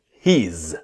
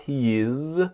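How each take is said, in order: First: It is contracted into one syllable. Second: It is said as two full syllables. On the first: The speaker calls it right. "one syllable, not he is, but he's" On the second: The speaker calls it wrong. "not he is"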